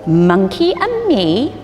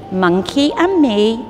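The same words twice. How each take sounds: The two takes are said the same way.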